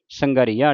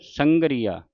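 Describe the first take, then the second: First: ਸੰਘਰੀਆ as sanga-riya in one piece; wrong pronunciation demo. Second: ਸੰਗਰੀਆ as sangree-aa, falling at the end; correct pronunciation demo. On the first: Teacher showing what not to say, joined ਸੰਘਰੀਆ. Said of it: "ਸੰਘਰੀਆ ਨਹੀਂ ਕਹਿਣਾ". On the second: Teacher correcting the slip, ਸੰਗਰੀਆ with separate aa. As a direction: give ਸੰਗਰੀਆ a long ee then its own aa. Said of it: "ਵੱਖਰਾ ਸੰਬੰਧਕ ਲਾ ਕੇ ਉਚਾਰਨ". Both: Shown as a demonstration.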